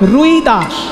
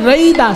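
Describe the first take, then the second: First: The name begins with a 'Rui' sound. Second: The name begins with a 'Rai' sound. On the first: This is how Bengali speakers say the name. "বাঙালিরা বলে রুই দাস" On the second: This is how Hindi speakers say the name. "Hindi উচ্চারণে রই দাস"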